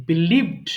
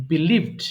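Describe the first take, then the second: No difference in how they are said.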